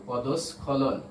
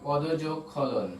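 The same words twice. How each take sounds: First: Said in the usual way. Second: পদযোগ খলন said very slowly, পদ and খলন held apart; slow spelled-out parts. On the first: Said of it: "তাহলে এর সঠিক বানান হবে". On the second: Shown as a demonstration. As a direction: drag out পদযোগ খলন to show the spelling pieces. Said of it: "খ দিয়ে". (পদযোগ খলন খুব ধীরে ভেঙে বলা)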